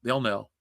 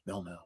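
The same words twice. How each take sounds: First: Said in the usual way. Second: They'll know dropped far softer, almost under the breath; soft muttered echo of They'll know; quiet echo. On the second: Shown as a demonstration. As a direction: repeat They'll know as a hushed aside. Repeats line, then echoes it.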